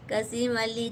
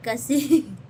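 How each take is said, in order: First: Said in the usual way. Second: Firm correction, कसीम said clearly and louder; correct name. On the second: Shown as a demonstration. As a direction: set the name right: कसीम, not कम जी. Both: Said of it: "कम जी नहीं".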